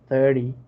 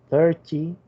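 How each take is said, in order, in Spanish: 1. El sonido T del medio se omite. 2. El sonido T del medio se pronuncia claramente.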